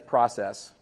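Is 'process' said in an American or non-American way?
American. It is said with an American pronunciation. "If you're American, that's process"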